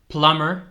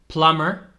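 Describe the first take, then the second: No difference in how they are said.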